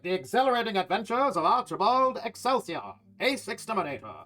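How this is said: It is read in a loud megaphone-like voice.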